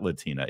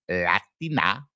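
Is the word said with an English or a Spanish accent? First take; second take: English; Spanish. First: It is said with a plain English accent. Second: It is said with a Spanish accent. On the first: "non accented English"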